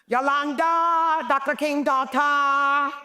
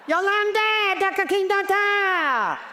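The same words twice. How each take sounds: First: High, drawn-out sing-song call; playful high sing-song greeting; calling out Yolanda. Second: Very high, hammed-up sing-song call; shrill-high playful repeat of the greeting; even higher call. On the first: Retold or imitated. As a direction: call her name across the room, teasing. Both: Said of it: "I'd go".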